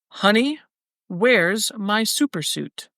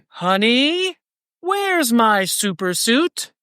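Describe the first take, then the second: First: It is read in a plain, ordinary reading voice. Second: It is read imitating a film character's inflection. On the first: "I'll just read them straight" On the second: "This is more the inflection of how it was said in the movie"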